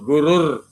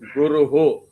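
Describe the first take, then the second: First: The word ends with an r sound. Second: The word ends with an h and echo vowel. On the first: It is joined to the next word. "after Guru there is a Ir. It is Gurur" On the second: It stands apart from the next word. "If you do Padabhedam, it is Guruhu"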